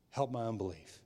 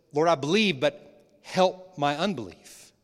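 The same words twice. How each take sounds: First: Softer, a low intimate plea; quiet plea. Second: A desperate father calling out to Jesus; loud plea. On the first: A doubting father asking Jesus quietly, soft and intimate. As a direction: murmur it like a confession. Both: Acted.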